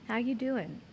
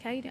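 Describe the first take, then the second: First: It sounds warm and sincerely meant. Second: It sounds quick and perfunctory.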